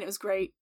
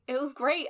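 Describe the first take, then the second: First: Said in the usual way. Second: Great rising high and eager; emphatic. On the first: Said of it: "It wasn't just fine". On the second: Real, not acted. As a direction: insist it was great, brightly. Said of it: "I said fine. It wasn't just fine".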